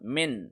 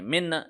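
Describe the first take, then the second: First: The n sound is held smoothly without a bounce. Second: The n sound ends with an echoing bounce. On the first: The speaker calls it right. "ऐसे पढ़ें" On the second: The speaker calls it wrong. "ऐसे ना पढ़ें"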